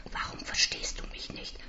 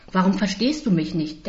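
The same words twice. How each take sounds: First: Tonloses Flüstern; flüstere verzweifelt fragend; geflüstert. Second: Said in the usual way. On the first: Acted. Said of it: "frage ich". (flüsternde Frage) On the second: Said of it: "denke ich".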